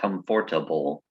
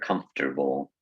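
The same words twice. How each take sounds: First: The vowel after 'comf' is pronounced. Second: The vowel after 'comf' is dropped. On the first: "Comfortable looks like comfortable" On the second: "we just cut out the, the extra letter"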